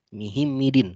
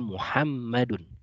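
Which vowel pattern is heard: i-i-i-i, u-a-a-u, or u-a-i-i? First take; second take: i-i-i-i; u-a-a-u. First: Every vowel is i. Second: The vowels run u, a, a, u. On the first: The speaker calls it wrong. "bukan Mihimidin" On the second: The speaker calls it right. "maka membacanya adalah Muhammadun"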